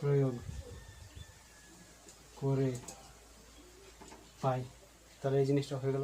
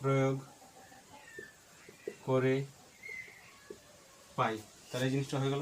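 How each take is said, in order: Both takes have the same delivery.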